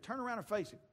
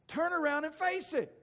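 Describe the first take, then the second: First: Higher-pitched recap at normal volume; recalled mama's advice. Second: High, loud motherly order; commanding mama. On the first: Retold or imitated. Boy remembers what his mama said, lightly quoted. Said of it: "remembered what his mama said". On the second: Acted. Mama orders her son to confront the chihuahua, hollering. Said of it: "then his mama told him".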